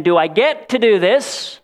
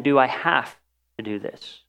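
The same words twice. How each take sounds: First: Eager question. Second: Grudging question. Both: Shown as a demonstration. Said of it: "There is a strong difference between saying".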